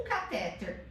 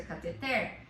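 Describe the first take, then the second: First: "catéter" stressed on the middle syllable; wrong stress caTÉter. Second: "cateter" stressed on the last syllable; correct stress cateTER. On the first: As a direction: say ca-TÉ-ter for "catéter". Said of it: "que o certo é cateter". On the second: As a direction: say ca-te-TER for "cateter". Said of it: "o certo é cateter". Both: Shown as a demonstration.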